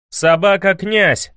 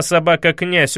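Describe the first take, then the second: First: Higher, slow defiant yell; loud yell. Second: Said in the usual way. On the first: A narrator's reading. Ivan repeating the insult to the prince, defiant yell. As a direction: hurl the insult back. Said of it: "завопил Иван".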